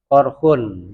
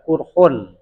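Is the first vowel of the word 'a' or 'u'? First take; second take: a; u. First: The first vowel is an open 'a' sound. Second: The first vowel is a rounded 'u' sound. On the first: "bi fathil qafi dengan fathah qaf" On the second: "wa dhamuha atau dibaca kurhun"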